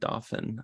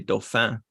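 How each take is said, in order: First: It is said with an American pronunciation. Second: It is said with a French pronunciation. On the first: "I thought American, they pronounce it Dauphin" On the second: "But in French, ... I want to say Dauphin. But then people think I'm snooty"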